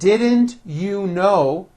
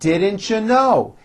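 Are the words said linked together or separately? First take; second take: separately; linked. First: Each word is said fully and separately. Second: The words are reduced and run together.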